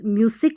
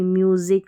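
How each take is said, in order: First: The middle consonant is an 's' sound. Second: The middle consonant is a 'z' sound. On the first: The speaker calls it wrong. "म्यूजिक नहीं" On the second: The speaker calls it right. "यहाँ पर एस को ज पढ़ा जा रहा है"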